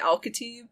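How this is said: The name is said with an American pronunciation. It is made easy for others to say. "I just kind of Americanize it so people can can say it"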